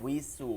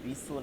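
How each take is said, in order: First: The syllable begins with a w sound. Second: The syllable begins with a b sound. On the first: The speaker calls it right. "ওয়াস উইসু" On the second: The speaker calls it wrong. "বিসু নাই"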